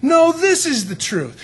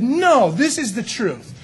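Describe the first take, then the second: First: Higher, louder, slow counterclaim; rival claimant. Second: Firm, slow claim of truth; first claimant. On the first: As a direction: outbid the first one with more force. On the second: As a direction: state it like the first preacher. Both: Pretend. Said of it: "both said".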